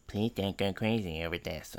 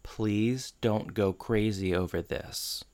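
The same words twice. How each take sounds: First: Mumbled, very soft mocking echo; imitating Corey. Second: Soft, slow, careful plea; cautious. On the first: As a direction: parrot the plea back under the breath. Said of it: "And Corey goes". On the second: Retold or imitated. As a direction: tread carefully, softly imitating a cautious request. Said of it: "very, like, cautiously says".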